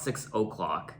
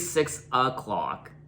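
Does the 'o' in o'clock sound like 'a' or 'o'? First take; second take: o; a. First: The o'clock vowel sounds like an o. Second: The o'clock vowel sounds like an a. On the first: "not six o'clock" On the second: "I say six o'clock"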